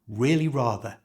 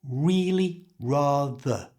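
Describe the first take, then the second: First: The phrase is said at normal conversational speed. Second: The phrase is said slowly and carefully. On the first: "And at normal speed" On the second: "Let's put it all together"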